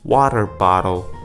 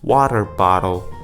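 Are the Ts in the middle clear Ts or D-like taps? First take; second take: D-like taps; D-like taps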